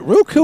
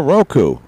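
First: "Roku" with first syllable like "rue"; pronunciation ROO-koo. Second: "Roku" with first syllable like "row"; pronunciation ROH-koo. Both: Shown as a demonstration. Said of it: "laughing at the way how I said".

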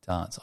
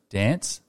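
First: Dance said softly as "dahnce"; low, soft "dahnce" for dance; dance with long ah. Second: Dance with the vowel of "cat"; short-vowelled "dance", as in "danss". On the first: Trying out co-host's version, dance as "dahnce". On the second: Testing own version on co-host, dance with short a. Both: Shown as a demonstration. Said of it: "What about dance and dance?".

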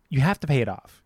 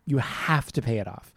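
First: Said in the usual way. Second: Emphatic, insistent "have"; stress on HAVE. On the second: Real, not acted. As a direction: lean hard on "have", drawing out its start. Repeats it for emphasis.

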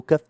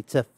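First: كف said with a plain k sound; plain kaf. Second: تسف said with a ts in place of the k; dialect ts sound. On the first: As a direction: say كف the standard way, hard k. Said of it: "صغتها باللهجة البيضاء". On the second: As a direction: turn the k of كف into ts, as تسف. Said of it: "صغتها باللهجة البيضاء ولا هي تسف". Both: Shown as a demonstration.

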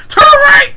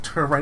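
First: Much higher, very loud desperate yell on "Turn right!"; frantic shout. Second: Said in the usual way. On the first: Retold or imitated. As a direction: scream it in exasperated panic. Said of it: "This makes no sense". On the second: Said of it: "He was like".

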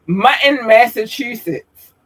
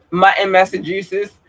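First: "Mutton, Massachusetts" higher, every sound articulated; careful enunciation. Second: Said in the usual way. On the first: Shown as a demonstration. Speaker redoing a shout-out, "Mutton, Massachusetts" high and carefully enunciated. Repeats the place name more distinctly.

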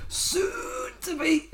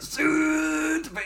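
First: Very high, slow, strained neck-tight squeeze; Zack Gibson impression. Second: High, slow, throat-squeezed, no Liverpudlian twang; tense neck voice, no accent. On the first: Reviewer mocking Gibson's promo line, strained high voice. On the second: Retold or imitated. Reviewer showing Gibson's line without the accent, strained and high. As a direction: tighten the neck and drag it out high. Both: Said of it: "the tense neck voice with it".

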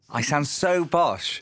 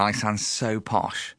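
First: Drawn-out, exaggerated posh English; posh accent. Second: Said in the usual way. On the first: Shown as a demonstration. Host mocking their own podcast intro, hammed-up posh accent.

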